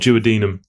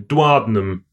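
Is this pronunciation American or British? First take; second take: British; American. First: The word is pronounced the British way. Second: The word is pronounced the American way. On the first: "Second way you said it is probably the correct way that an English person would say it" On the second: "I think that's American"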